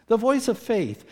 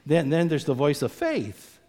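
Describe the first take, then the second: First: "The voice of faith" lifted much higher and louder; emphatic repeat. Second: Said in the usual way. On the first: Shown as a demonstration. Preacher stressing "The voice of faith" to the congregation, high and loud. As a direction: hit "faith" hard on the repeat.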